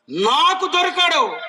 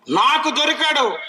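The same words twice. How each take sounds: First: నాకు దొరికాడు, slow and firm with దొరికాడు falling; slow emphatic. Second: Said in the usual way. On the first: Shown as a demonstration. Preacher echoing a believer, slow and insistent. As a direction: drag out దొరికాడు, firmly. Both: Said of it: "repeated, drawn out".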